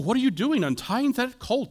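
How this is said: The question sounds gentle and friendly. A polite, curious inquiry. The speaker calls it wrong. "I don't hear it as, oh"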